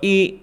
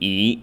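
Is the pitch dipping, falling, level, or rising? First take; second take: level; dipping. First: The pitch stays high and level. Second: The pitch dips low then rises.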